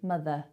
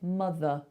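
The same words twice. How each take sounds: First: The last vowel sounds like a clear eh. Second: The last vowel is a relaxed, neutral uh. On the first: The speaker calls it wrong. "it's too much like an eh sound" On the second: The speaker calls it right. "Really drop it"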